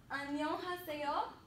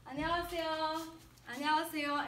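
First: 안녕하세요 with distinct syllables, rising at the end; every sound pronounced. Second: 안녕하세요 quick and smooth, h dropped; fluent. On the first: Teacher repeats hello for learners, 안녕하세요 with each syllable distinct. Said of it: "pronounce every sound". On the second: Teacher repeats hello for learners, 안녕하세요 fast and fluent. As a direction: run 안녕하세요 together as one fluent word. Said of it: "sound as fluent as possible". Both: Shown as a demonstration.

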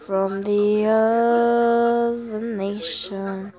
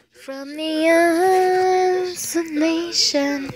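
First: Drawn-out eerie low voice; lightly spooky chant; slow spooky voice. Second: Drawn-out, slightly higher eerie line; lightly hammed-up ghost voice; slow spooky voice again. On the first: Pretend. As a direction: stretch it out like a ghost. Mock spooky drawn-out phrase. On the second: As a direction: stretch every word slowly.

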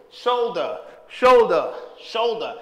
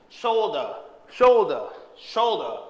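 Both takes have the same delivery.

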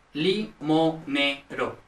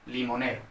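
First: Limonero very slowly, broken into li, mo, ne, ro; syllable by syllable. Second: Said in the usual way. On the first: Shown as a demonstration. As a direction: spell out limonero in separate syllables. Mnemonic split into syllables. (limonero, sílaba por sílaba, muy despacio)

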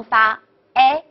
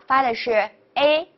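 First: "A" as an open eh; wide French è on "A"; big-mouth A. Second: "A" as a closed ay; small-mouth A. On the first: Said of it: "大口的A". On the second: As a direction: narrow French é on "A". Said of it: "小口的A". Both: Shown as a demonstration.

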